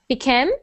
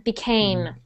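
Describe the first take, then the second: First: The second vowel is reduced and short. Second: The second vowel is a full 'ay' sound. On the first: The speaker calls it wrong. "I'm hearing bikem" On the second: The speaker calls it right. "we really need that A"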